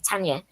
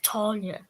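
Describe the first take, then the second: First: The first vowel is a short 'a' sound. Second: The first vowel is a long 'ar' sound. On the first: This is how Northerners naturally say it. "for us Northerners, it's no. We just want to say Tanya" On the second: This is how the character wants her name said. "almost like it was written T A R N I A"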